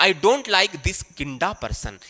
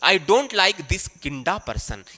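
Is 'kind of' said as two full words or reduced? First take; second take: reduced; reduced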